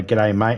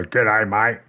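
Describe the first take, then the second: First: Said in the usual way. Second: Mock attempt at an Australian accent; shitty Australian accent. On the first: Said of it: "I'll go into somebody's stream and I'll say". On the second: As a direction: imitate someone botching an Australian greeting. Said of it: "try to do a shitty Australian accent".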